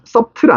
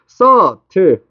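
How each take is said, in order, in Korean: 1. b는 중간에서 발음돼요. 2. b는 중간에서 묵음이에요. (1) "비발음 안 subtle 아니야" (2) "너네 이거 subtle이라고 읽어야 돼"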